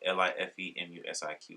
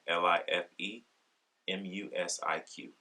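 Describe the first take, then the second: First: It is spelled out at normal speed. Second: It is spelled out more slowly.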